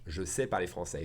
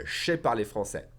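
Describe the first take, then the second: First: Said in the usual way. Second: "Je sais" merged into one syllable, "shay"; faster contracted form. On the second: Shown as a demonstration. Teacher showing faster French, "Je sais" contracted to ché. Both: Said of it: "If I say it faster".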